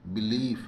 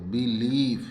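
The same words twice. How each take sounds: First: Said in the usual way. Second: "बिलीव" drawn out with a long ई; long ee demonstration. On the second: Shown as a demonstration. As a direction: stretch the ई in "बिलीव" as a model. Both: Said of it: "बड़ी ई की मात्रा".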